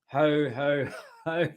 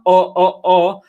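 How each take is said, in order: First: Each syllable starts with a clear H sound. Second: Each syllable starts with a vowel, no H. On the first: The speaker calls it right. "In English, we pronounce the H" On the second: The speaker calls it wrong. "It's not o o o"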